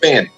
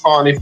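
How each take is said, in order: First: The first vowel sounds like the one in 'fan'. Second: The first vowel sounds like the one in 'fawn'. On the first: The speaker calls it wrong. "it looks like Fannie" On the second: The speaker calls it right. "but it's Fawny"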